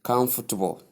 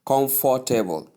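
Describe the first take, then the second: First: COMFORTABLE as KUMF-tuh-bul; correct pronunciation. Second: COMFORTABLE as kom-for-tay-bol; all syllables of "comfortable" given full vowels; wrong full pronunciation. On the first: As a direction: say "comfortable" with stressed "kum" and softened middle. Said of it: "you simply say". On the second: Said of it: "Instead of pronouncing it". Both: Shown as a demonstration.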